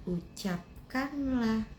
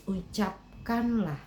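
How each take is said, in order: The two takes are said the same way.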